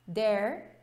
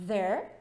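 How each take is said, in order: First: "There" said "dere", with a hard d and no air; "There" mispronounced with a d; wrong d sound. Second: English th in "there", air audible; correct th sound. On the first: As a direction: stop the air on "There", like a Portuguese d. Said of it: "não sai". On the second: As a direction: blow air through the teeth on "there". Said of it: "sai ar". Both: Shown as a demonstration.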